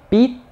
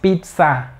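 First: The word ends in a weak schwa vowel. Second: The word ends in a full 'a' vowel. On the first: The speaker calls it right. "es una schwa" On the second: The speaker calls it wrong. "No digas pizza, porque no es una A"

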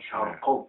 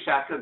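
First: The k sound is made deep in the throat. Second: The k sound is an ordinary front k. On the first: This is how people from the East say it. "biraz boğazdan söyler şarktaki insan" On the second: This is how locals ordinarily say it. "biz de şarkı diyoruz"

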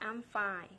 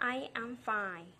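First: I and am are joined into one syllable. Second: I and am are said as separate words.

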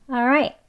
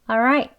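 First: The first syllable is a weak 'uh' sound. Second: The first syllable is a weak 'uh' sound.

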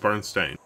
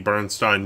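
First: The last syllable rhymes with 'rain'. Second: The last syllable rhymes with 'line'. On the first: This is the actual version of the name. The speaker calls it right. "apparently it was always Bernstein" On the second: This is the commonly misremembered version of the name. The speaker calls it wrong. "I too was part of the Bernstein universe"

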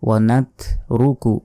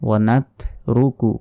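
The two takes are said the same way.

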